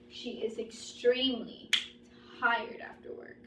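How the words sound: Extremely is emphasized, with a pause beside it.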